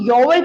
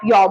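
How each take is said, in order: First: The word is drawn out into two syllables. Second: The word is said as one short syllable. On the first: The speaker calls it wrong. "इसको योवर योवर मत कीजिएगा" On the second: The speaker calls it right. "योवर की जगह आप यो बोलेंगे"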